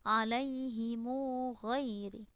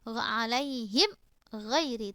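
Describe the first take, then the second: First: The m takes a lengthened u vowel. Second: The m is closed with no following vowel. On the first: "Yang kedua silah" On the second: "itu juga sukun"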